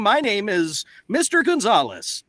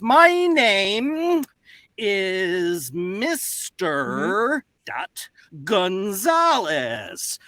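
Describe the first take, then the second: First: It flows in an even, script-reading rhythm. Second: It is broken up with an uneven, halting rhythm. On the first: The speaker is simply reading a script. The speaker calls it wrong. "does it sound like this?" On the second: The speaker is writing on a chalkboard while talking. The speaker calls it right. "you don't speak in the same cadence and rhythm as you would just reading a script"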